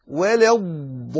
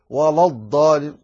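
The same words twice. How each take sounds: First: Thin L in ولا before long heavy الضالين; light lam. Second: Thick, dark L in ولا before الضالين; wrong heavy lam. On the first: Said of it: "لتفخيم الضاد". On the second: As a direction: darken ولا to match the ض of الضالين. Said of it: "لا تقل ولا الضالين". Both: Shown as a demonstration.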